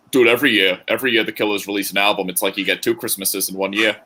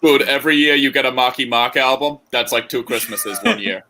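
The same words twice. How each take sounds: First: Put-on light Boston accent, slightly quicker; a casual hint of a Boston accent. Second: Put-on Boston accent. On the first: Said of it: "I don't know why I said that in a Boston accent". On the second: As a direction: lean into a thicker Boston accent. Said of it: "Better better than that".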